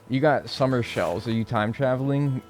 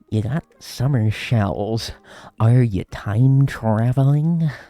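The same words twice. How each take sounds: First: It is read in an ordinary, plain voice. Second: It is read in a put-on Joker-like voice.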